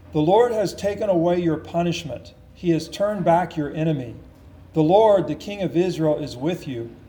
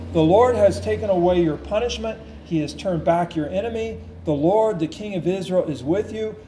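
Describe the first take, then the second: The two takes are said the same way.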